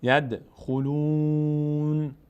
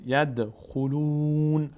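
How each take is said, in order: First: ید خلون very slow, ends on a still ن; stop with sukun. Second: ید خلون drawn out very slowly; slow recitation. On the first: Teacher stops on ید خلون with sukun. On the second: Teacher recites ید خلون for students. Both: Shown as a demonstration. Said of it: "اگه توقف کنیم باید ساکن بشه".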